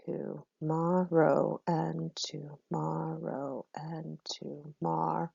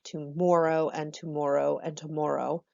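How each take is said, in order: First: Slow, modern "tomorrow" with the "mar" sound; modern pronunciation. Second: "tomorrow" said as "to-more-oh", a round "mor" each time; Shakespearean pronunciation. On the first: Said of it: "it looks like saying mar and mar and mar". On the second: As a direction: read "tomorrow" the sixteenth-century way, "more" inside. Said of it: "pronounced more like more". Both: Shown as a demonstration.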